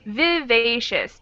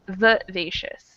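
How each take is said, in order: First: The first vowel is a full 'i' sound. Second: The first vowel is a reduced 'uh' sound. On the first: This is the careful, formal way to say it. "technically correct pronunciation" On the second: This is the casual way to say it. "change that I to an uh sound"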